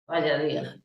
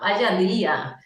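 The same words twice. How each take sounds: First: The voice sounds weary and annoyed. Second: The voice sounds excited and delighted. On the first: The day has been bad. "con mi tono, yo estoy diciendo que no tengo un día bueno" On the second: The day has been great. "¡guau! ... y estoy diciendo todo lo contrario"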